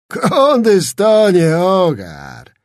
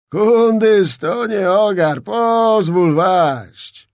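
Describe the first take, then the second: First: Higher, very slow, loud pompous drawl; fat nobleman. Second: Higher, slow pompous voice, "pozwól" dragged out; fat nobleman. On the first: Zagłoba approaching Skrzetuski, slow pompous braggart voice. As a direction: savour each word like an old braggart. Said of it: "rzekł zbliżając się gruby szlachcic". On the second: Zagłoba offering service to Skrzetuski, pompous slow drawl. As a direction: ingratiate yourself like a boastful old noble. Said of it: "mówił dalej". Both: A narrator's reading.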